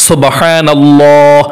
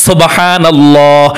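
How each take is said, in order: The two takes are said the same way.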